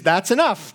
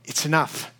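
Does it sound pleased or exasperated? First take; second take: pleased; exasperated. First: It sounds pleased and approving. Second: It sounds exasperated and dismissive.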